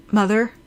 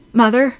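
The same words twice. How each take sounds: First: Tentative rising call down the phone; questioning call. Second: Louder, higher call down the phone; anxious call. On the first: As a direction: check if she is still there. Line seems dead, first call. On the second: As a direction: call out with rising worry. Calls again, more urgently. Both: A narrator's reading.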